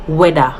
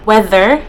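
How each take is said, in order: First: Weather said "weda", d for th, no r; Jamaican pronunciation. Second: Said in the usual way. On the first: Shown as a demonstration. YouTuber contrasting the Jamaican "weda".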